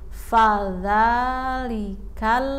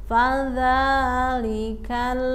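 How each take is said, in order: The two takes are said the same way.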